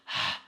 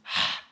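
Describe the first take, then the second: First: The h is a harsh sound from the throat. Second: The h is a harsh sound from the throat.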